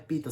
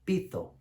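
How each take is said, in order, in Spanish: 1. La palabra se dice de forma casual, como la palabra en español. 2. La palabra se dice con la pronunciación cuidadosa del griego. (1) "no es pito" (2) "más cuidadosos en la manera de pronunciar el griego"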